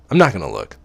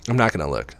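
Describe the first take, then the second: First: "I'm not gonna look" pushed louder with stress on not; stubborn self-command, louder; firmer, louder. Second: Said in the usual way. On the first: Acted. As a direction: insist on it louder this time, leaning on "not". Repeats resolve more firmly.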